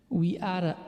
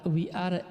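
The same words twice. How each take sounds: Both takes have the same delivery.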